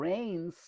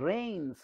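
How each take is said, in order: Both takes have the same delivery.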